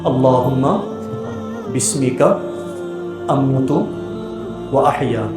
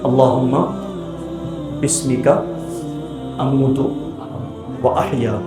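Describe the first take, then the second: Both takes have the same delivery.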